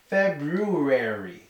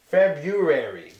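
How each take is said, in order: First: The first R sound is clearly pronounced. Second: The first R sound is clearly pronounced.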